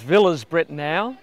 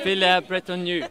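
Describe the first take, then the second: First: The name is said with an Australian English pronunciation. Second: The name is said with a French-like local pronunciation. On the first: "which is probably the standard Australian pronunciation" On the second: "I'm trying so hard to get it right"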